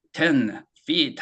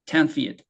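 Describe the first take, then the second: First: "Ten" and "feet" slow, each with its own beat; two separate words. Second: "Ten feet" joined closely as a single unit; one noun chunk. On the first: Teacher showing two different words, "Ten feet" said slowly apart. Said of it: "two different words". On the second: Teacher modelling a noun chunk, "Ten feet" run together. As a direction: bind "Ten" tightly to "feet", falling at the end. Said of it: "명사 덩어리처럼". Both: Shown as a demonstration.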